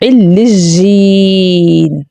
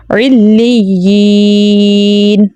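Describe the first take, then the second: First: علیین said with a j, as illi-jeen; wrong pronunciation. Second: علیین with a clear doubled y, as illi-yeen; correct pronunciation. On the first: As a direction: swap the doubled y for j in علیین. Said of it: "wrong pronunciation کیا ہوتی ہے". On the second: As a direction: glide slowly through a long yee in علیین. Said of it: "ہم نے کس طرح پڑھنا؟". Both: Shown as a demonstration.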